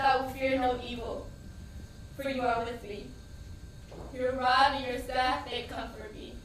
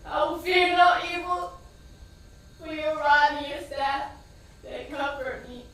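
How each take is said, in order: First: Steady recitation, holding on to the words; reciting a psalm. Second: Louder, crying the psalm out; shouted psalm. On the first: Praying the psalm over her wounded son, measured recitation. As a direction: recite it like a prayer over him. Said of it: "I started to recite scriptures". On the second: Shouting scripture as they take her son away, loud. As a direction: yell the prayer after the ambulance. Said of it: "I kept going". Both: Retold or imitated.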